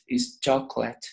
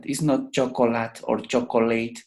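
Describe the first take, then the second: First: Chocolate said in two syllables, CHOC-let, the middle o silent; correct pronunciation. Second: Chocolate said in three full syllables, cho-co-lat, then cho-co-let; wrong pronunciation. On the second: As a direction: spell out chocolate with every vowel, cho-co-lat. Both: Shown as a demonstration.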